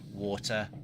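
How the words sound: The word is said with a clear T.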